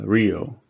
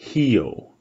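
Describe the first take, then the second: First: The word begins with an R sound. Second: The word begins with an H sound. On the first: The speaker calls it wrong. "no one says Rio" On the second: The speaker calls it right. "it's pronounced like an H"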